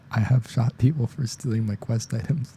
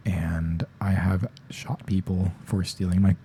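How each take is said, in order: First: Higher voice, suppressed giggle; retry the line while fighting a laugh; holding back laughter. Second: Said in the usual way. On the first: Real, not acted. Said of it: "I'm trying not to laugh".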